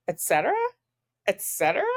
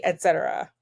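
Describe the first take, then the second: First: "Et cetera" repeated as a rising, disbelieving question; incredulous echo. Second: Said in the usual way. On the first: Shown as a demonstration.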